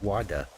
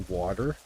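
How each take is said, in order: First: It is said in a British accent. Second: It is said in a Canadian accent.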